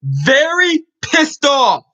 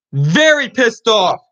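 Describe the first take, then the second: First: Slow, angry shout. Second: Said in the usual way. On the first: Real, not acted. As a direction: drag it out in real anger. Angry fan rant opening.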